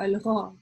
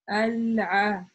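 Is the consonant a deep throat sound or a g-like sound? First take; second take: g-like; deep throat. First: The consonant is a higher, g-like sound. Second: The consonant is a deep sound from mid-throat. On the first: The speaker calls it wrong. "превращается у некоторых га" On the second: The speaker calls it right. "середина горла у нас более интенсивно задействована"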